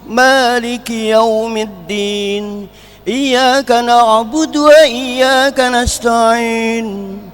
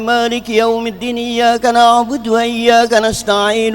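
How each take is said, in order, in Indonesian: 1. Ada jeda setelah ayat pertama. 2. Kedua ayat dibaca terus tanpa jeda. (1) "Ada wakaf" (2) "Kalau wasal langsung"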